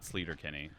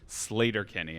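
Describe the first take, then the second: First: The first word has the vowel of 'sleet'. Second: The first word has the vowel of 'slate'. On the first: The speaker calls it wrong. "and not Sleater Kinney" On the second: The speaker calls it right. "it's pronounced Slater Kinney"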